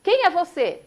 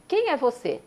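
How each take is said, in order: First: High, loud call into the mountains; startled boy yelling who's there. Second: Answering echo. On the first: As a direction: shout the question out to the unseen voice. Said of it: "e fala". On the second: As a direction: give it back like a distant echo. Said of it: "uma voz responde". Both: Retold or imitated.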